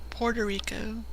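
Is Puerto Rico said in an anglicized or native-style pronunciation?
anglicized. It is pronounced in an anglicized, butchered way. Local listeners understand it right away. "It's like a butchering of Puerto Rico"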